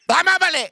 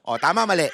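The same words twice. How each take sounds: First: Calling to the audience. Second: Said in the usual way. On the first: Shown as a demonstration. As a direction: call out to the audience for an answer. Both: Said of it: "gusto ko marinig".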